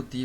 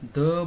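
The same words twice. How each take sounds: First: दी said with a long "ee" vowel. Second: द said with a short, schwa-like vowel. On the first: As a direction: stretch दी into "thee". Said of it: "दी बोलते हैं". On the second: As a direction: say द as a quick "thuh". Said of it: "द बोलते हैं". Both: Shown as a demonstration.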